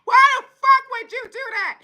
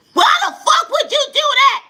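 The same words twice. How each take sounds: First: High mock yell, less loud; yelling relative. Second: Much higher, louder mock yell; yelling relative. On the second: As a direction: yell it like a furious family member on the phone. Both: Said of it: "they yelling at you".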